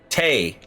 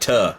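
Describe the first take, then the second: First: The vowel is a Scottish 'ay' sound. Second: The vowel is a reduced, neutral 'uh' sound. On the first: "if she was Scottish, she would say tay" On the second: "instead of tuh"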